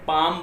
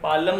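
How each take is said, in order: First: The L sound is silent before the M. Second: The L sound is pronounced before the M. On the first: The speaker calls it right. "इसे पाम बोलेंगे" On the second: The speaker calls it wrong. "इसे पालम नहीं कहेंगे"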